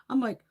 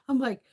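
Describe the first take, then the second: No difference in how they are said.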